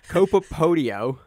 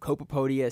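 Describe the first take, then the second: First: The second word ends in an 'oh' sound. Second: The second word ends in an 'ah' sound. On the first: The speaker calls it right. "Did I do the O again?" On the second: The speaker calls it wrong. "You used the A"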